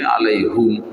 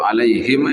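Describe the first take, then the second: First: The last syllable has a 'u' vowel. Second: The last syllable has an 'i' vowel.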